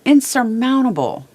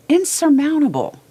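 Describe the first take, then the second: First: "insurmountable" pushed up and louder, falling at the end; stressed word. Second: "insurmountable" much higher and louder, falling hard; stronger repeat. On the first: Telling viewers in a dark place, with "insurmountable" stressed. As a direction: lean hard into "insurmountable", letting it fall. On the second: Repeating it to viewers, "insurmountable" hit at its peak. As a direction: hit "insurmountable" even harder, peaking high. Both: Real, not acted.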